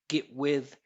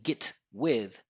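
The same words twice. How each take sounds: First: The T is held without an audible release. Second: The T is released with an audible burst. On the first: The speaker calls it right. "I'm not releasing this T" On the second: The speaker calls it wrong. "not saying get with"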